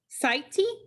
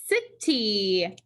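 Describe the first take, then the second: First: The first vowel is long, like 'sigh'. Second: The first vowel is short, like 'sit'. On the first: The speaker calls it wrong. "That would make the I long" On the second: The speaker calls it right. "The I would be closed in"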